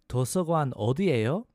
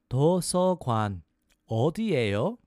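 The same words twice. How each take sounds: First: It is said fast. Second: It is said slowly.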